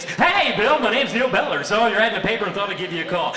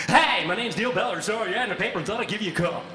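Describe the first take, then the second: First: Much higher and louder hyped radio announcer; fake DJ voice. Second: High, loud, fast radio DJ patter; fake DJ voice. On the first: Job seeker pitching himself to the DJ boss, hyped DJ voice. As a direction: sell yourself like a morning-show host. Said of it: "this D J voice". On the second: Calling about the job ad in a fake radio voice. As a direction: slick radio announcer pitching himself. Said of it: "launch into this D J voice".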